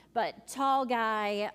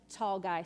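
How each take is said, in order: First: "tall guy" drawn out slow and louder; stress on tall. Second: Said in the usual way. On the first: Retold or imitated. Youth leader stressing how tall her student is, "tall" louder and slow. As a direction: lean hard into "tall guy", slowly.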